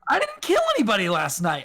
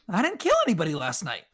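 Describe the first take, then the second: First: It is said a little bit louder. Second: It is said at an ordinary volume.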